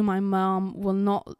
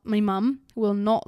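First: Said in the usual way. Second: British "mum" with a short uh vowel; playful British pronunciation of "mum"; British accent. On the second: Pretend. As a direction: say "mum" the British way, rhyming with "hum". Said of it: "when I speak in my British".

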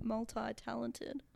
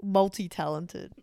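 First: Multi-talented with MULTI as "mul-tie". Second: Said in the usual way. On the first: Real, not acted. Co-host answering while trying to sound cool, "multi" as mul-tie. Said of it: "Did you say multi".

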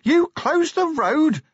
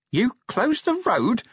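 First: Very high, loud, slow shout; full-on yell of disbelief, stretched out; louder incredulous yell. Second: High, slow, drawn-out yell; high raised question, stretched out; incredulous yell. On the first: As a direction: bellow the question at top pitch. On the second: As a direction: yell it in disbelief, word by word. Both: A narrator's reading. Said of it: "he yelled as they plunged on".

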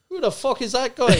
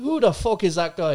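First: Higher, louder Irish brogue as Conor McGregor; brash Irish accent, mocking the heckler. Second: Put-on a touch louder Irish accent, quoting Conor McGregor; cocky Irish accent, repeating the line. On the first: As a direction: fire it off in a cocky Irish accent. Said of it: "Great accent". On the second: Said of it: "you can only do it in that accent".

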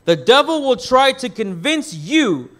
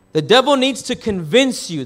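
First: Emphasize the word "convince"; "convince" picked out with firm emphasis; stress on "convince". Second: Said in the usual way. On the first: Shown as a demonstration. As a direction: lean on "convince", higher than the rest. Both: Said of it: "emphasize on the word convince".

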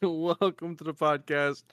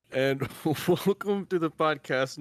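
First: Slow podcast host welcome; interviewer voice. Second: Giggling through a formal welcome; cracking up mid-announcement; breaking character giggling. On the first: Acted. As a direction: welcome them like a radio host. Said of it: "like, the narrator voice". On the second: Real, not acted. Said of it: "Nope, I can't do it with a straight face".

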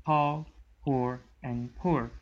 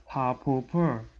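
First: "how, poor, and poor" said clearly, each word apart; clear Northern Irish. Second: "how, poor, poor" run together, less distinct; British run-together words. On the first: Contrasting Northern Irish accent for the group, clear separate words. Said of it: "clearly say it like". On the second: Contrasting British accents for the group, run-together words. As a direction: blur "how, poor, poor" into each other. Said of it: "They're gonna say it like". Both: Shown as a demonstration.

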